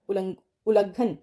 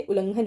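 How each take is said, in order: First: उल्लंघन as u-la-ghan, nasal dropped; wrong pronunciation. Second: उल्लंघन with ng before gh; उल्लंघन as ul-lang-ghan; correct pronunciation. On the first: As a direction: drop the ng from उल्लंघन. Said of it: "ऐसे नहीं लिखते". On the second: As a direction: sound the nasal in उल्लंघन, u-lan-ghan. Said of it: "उल्लंघन होता है". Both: Shown as a demonstration.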